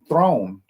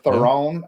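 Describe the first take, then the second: First: The surname is said as one syllable. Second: The surname is said with two syllables. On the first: The speaker calls it right. "it's actually throne, like something you sit on" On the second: The speaker calls it wrong. "how everybody's been trying to pronounce it, and we always get it wrong"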